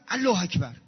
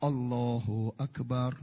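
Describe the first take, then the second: First: الله اکبر said the wrong way, rushed; wrong Allahu akbar. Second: Slow, careful الله اکبر with full vowels; correct Allahu akbar. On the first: Preacher mocking people who say الله اکبر wrong, hurried. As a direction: blurt الله اکبر carelessly. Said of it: "غلطه". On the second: Preacher showing the congregation the correct الله اکبر, slow. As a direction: draw out الله اکبر slowly and properly. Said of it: "نگاه کن". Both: Shown as a demonstration.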